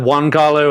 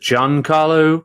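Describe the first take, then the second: First: The name begins with a W sound. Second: The name begins with a J sound. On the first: The speaker calls it wrong. "I've always said Juan Carlo, and I know that's wrong" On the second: The speaker calls it right. "you pronounce it Giancarlo Esposito"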